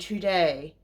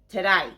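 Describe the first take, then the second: First: It is said as a plain, full 'today'. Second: It is said so it sounds like 'g'day'. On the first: This is how the speaker originally said it. "I used to say today" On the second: A friend's influence changed how it is said. "he makes me say it now like g'day"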